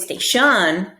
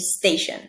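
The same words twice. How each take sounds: First: The stress is on the second syllable. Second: The stress is on the first syllable. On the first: The speaker calls it wrong. "I don't say station" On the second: The speaker calls it right. "I say station"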